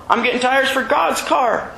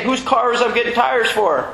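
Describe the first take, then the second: First: "God's" raised and leaned on, falling at the end; "God's" higher and firmly stressed. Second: Said in the usual way. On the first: Shown as a demonstration. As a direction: land the answer hard on "God's".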